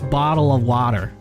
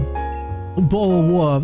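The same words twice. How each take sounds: First: It is said in an American accent. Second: It is said in a British accent. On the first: "Now it's" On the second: "I've left the whole bottle of water life behind me"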